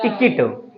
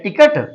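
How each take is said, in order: First: "टिकट" with an i in both syllables; correct pronunciation of ticket. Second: "टिकट" with a short uh in the second syllable; common reading of ticket. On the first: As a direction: say "टिकट" as ti-kit. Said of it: "इसे बोलते हैं". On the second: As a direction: say "टिकट" as ti-KUT. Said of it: "इसे क्या पढ़ते हैं?". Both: Shown as a demonstration.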